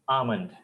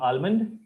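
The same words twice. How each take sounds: First: The L sound is silent. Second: The L sound is clearly pronounced. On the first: The speaker calls it right. "L is silent" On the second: The speaker calls it wrong. "The pronunciation is not almond"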